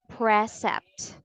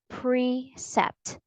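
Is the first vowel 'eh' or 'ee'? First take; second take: eh; ee. First: The first vowel sounds like 'eh'. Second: The first vowel sounds like 'ee'. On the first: The speaker calls it wrong. "the vowel sound is not eh ... So we don't say precept" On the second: The speaker calls it right. "but e ... but precept"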